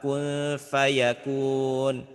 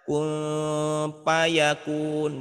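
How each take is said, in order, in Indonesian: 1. Kata kedua diawali bunyi f, gigi menyentuh bibir bawah. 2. Kata kedua diawali bunyi p, dengan kedua bibir. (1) "Fa fa fa kun fayakun gitu" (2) "Fa bukannya pak ya. Kun payakun bukan"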